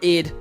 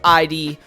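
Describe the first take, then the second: First: It is said as a single short word. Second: It is spelled out as two separate letters. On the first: "pretty sure it's pronounced id" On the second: "but I like to say I D"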